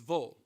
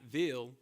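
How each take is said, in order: First: The ending is reduced to a short "vul" sound. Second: The ending is said with a clear "ill" vowel. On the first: The speaker calls it right. "That's how we pronounce it" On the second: The speaker calls it wrong. "V I L L E is not Ville"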